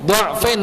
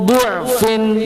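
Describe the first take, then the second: First: The first vowel is an open 'a' sound. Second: The first vowel is a rounded 'u' sound. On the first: It follows the vowel written in the printed text. "Tertulis dengan harokat apa Pak? Fathah" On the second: It follows the better-known reading tradition. "Dibaca menggunakan apa? Dham, dhammah"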